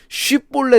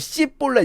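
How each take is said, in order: First: The word begins with an sh sound. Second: The word begins with an s sound. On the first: The speaker calls it right. "쉬 발음" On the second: The speaker calls it wrong. "씨볼렛 이렇게 말하는"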